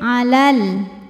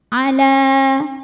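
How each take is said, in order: First: The vowel is short and joins the next lam. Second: The final vowel is held long. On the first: The reader continues into the next word. "tapi kalau terus jadi pendek" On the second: The reader stops on this word. "la kalau berhenti hukumnya mad tabi'i"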